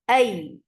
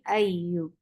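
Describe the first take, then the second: First: The doubled ya is hit with a sudden jump. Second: The doubled ya is said smoothly without emphasis. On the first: The speaker calls it right. "here you are applying nabar, and nabar is a jump of sound" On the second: The speaker calls it wrong. "If I am saying it without nabar, it will be ayu"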